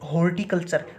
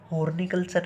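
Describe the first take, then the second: First: It is said with a T sound before 'iculture'. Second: It is said with an N sound before 'iculture'. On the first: The speaker calls it right. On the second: The speaker calls it wrong.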